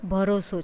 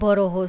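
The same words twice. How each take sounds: First: The middle consonant is an 's' sound. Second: The middle consonant is an 'h' sound. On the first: This is the standard language form. "શુદ્ધ ગુજરાતીમાં" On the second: This is the local dialect form. "સ્થાનિક બોલી સ ને બદલે હ"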